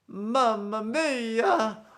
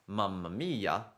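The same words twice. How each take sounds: First: It is said in an exaggerated character voice. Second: It is said in a plain, ordinary voice. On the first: "he might do something like this: ... very exaggerated" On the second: "instead of saying"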